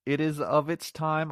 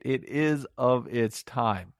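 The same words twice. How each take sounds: First: Said in the usual way. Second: "it is of its time" drawn out slowly, each word weighted; slow emphatic repeat. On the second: Real, not acted. Reviewer stresses to viewers that the film is old, slow and weighty. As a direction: lean on "is" and stretch the whole phrase.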